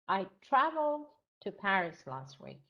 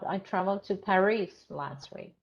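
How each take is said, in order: First: The word traveled carries the main stress. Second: The word Paris carries the main stress. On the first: The important point is the travelling. "yeah, travel" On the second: The important point is where. "Paris, bravo"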